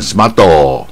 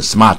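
First: An extra vowel is added after the t. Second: The r is not curled back. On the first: "日本念smarto" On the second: "你不要念"

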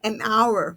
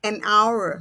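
First: An n sound links the article to 'hour'. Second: An n sound links the article to 'hour'.

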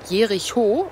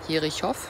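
First: The name ends in a plain o vowel. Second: The name ends with a consonant after o. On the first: The speaker calls it right. "das heißt Jericho" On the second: The speaker calls it wrong. "also gar nicht Jerichow. Ich habe das falsch ausgesprochen"

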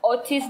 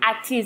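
First: The name begins with an 'oh' vowel. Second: The name begins with an 'ah' vowel. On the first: The speaker calls it wrong. "Many people say Mercy Otis" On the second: The speaker calls it right. "but it's Atis"

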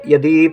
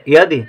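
First: The final vowel is held long. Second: The final vowel is kept short. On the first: The speaker calls it wrong. "यदि हम बड़ी की मात्रा लिखते हैं तो यदि पढ़ा जाएगा, यदि गलत हो जाएगा" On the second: The speaker calls it right. "हमें चाहिए यदि, तो दा में छोटी की मात्रा"

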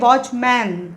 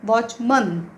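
First: The last syllable is a full 'man'. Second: The last syllable is a reduced 'mun'. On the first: The speaker calls it wrong. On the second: The speaker calls it right.

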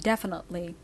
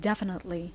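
No difference in how they are said.

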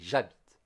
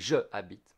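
First: The vowel of je is dropped. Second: The vowel of je is pronounced separately. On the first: The speaker calls it right. "we say j'habite" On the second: The speaker calls it wrong. "we don't say je habite"

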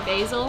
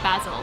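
First: It is said with an American pronunciation. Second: It is said with a British pronunciation. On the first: "Americans say Basil" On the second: "British and Australian people say Basil"

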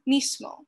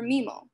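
First: The s sound is fully and strongly pronounced. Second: The s sound is dropped out completely. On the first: "with a strong S sound" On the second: "deleted forms"

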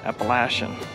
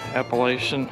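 First: It uses the pronunciation used in the South. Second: It uses the speaker's usual, non-Southern pronunciation.

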